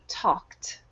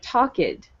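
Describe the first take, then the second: First: The ending is said as a t sound. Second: The ending is said as an extra syllable. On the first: The speaker calls it right. "you want to pronounce the ed as if it were a t" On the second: The speaker calls it wrong. "it should not sound like talked"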